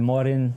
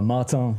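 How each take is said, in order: First: The name is pronounced the English way. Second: The name is pronounced the French way.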